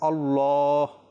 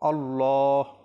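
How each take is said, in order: No difference in how they are said.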